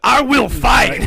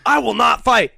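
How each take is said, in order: First: Loud, higher-pitched instant turnaround; hammed-up heroic shout; mock defiant shout. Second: Higher-pitched, hammed-up refusal; mock-heroic refusal, raised pitch; mock firm refusal. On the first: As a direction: declare it loudly, mock-outraged. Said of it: "gonna put a woman in your robot". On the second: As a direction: declare it like a stubborn movie hero. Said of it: "He's like".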